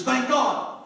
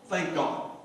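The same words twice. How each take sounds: First: Excited thank god. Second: Said in the usual way. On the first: Acted. Rider spurring the horse on with glee, excited. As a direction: thank God said higher and louder. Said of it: "the horse goes faster". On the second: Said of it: "Thank God," the horse is riding".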